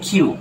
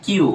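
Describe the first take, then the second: First: "কিউ" with breath after the k, like khyu; British letter Q. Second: "কিউ" with unaspirated k; Bangladeshi letter Q. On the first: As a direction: puff of air opening "কিউ". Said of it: "ওরা বলে কিউ". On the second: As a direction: say "কিউ" with no puff of air. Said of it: "আমরা বলি কিউ". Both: Shown as a demonstration.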